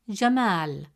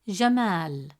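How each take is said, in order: The two takes are said the same way.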